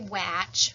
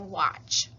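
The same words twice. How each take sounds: First: The vowel is the short a sound. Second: The vowel is an open o-like sound. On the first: The speaker calls it wrong. "that A to say ah, but we don't say watch" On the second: The speaker calls it right. "we say watch"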